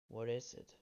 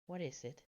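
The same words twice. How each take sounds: First: It is said in the speaker's normal voice. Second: It is said in a put-on female voice. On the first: The speaker calls it wrong. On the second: The speaker calls it right.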